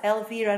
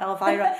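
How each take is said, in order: First: It is said the Edinburgh way. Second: It is said the American way.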